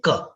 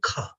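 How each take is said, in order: First: The k has no extra puff of air. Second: The k has an extra puff of air. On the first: "this sound is not aspirated" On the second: "that sound is aspirated because it has additional flow of air"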